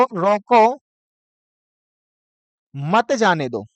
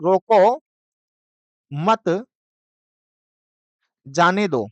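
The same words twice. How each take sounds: First: "रोको" rising, long pause, then "मत जाने दो" in one breath; pause after रोको. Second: Long pauses after "रोको" and after "मत", then "जाने दो"; "रोको", pause, "मत", longer pause, "जाने दो"; punctuation pause demo. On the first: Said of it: "और एक है आपको". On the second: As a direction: set "मत" apart, then let "जाने दो" fall. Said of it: "विराम चिन्हों का प्रयोग". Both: Shown as a demonstration.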